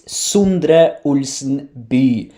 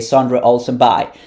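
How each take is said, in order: First: The name is said with Norwegian pronunciation. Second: The name is said with American pronunciation. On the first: "if you want to say it correctly" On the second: "I made an American way of saying it"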